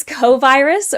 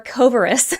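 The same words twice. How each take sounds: First: "Covirus" with the full word virus sounded; first pronunciation. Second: "Covirus" with a reduced middle vowel, co-vuh-rus; alternative pronunciation. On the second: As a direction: say "Covirus" like cover-us with a long o. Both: Shown as a demonstration. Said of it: "Is this Covirus or Covirus".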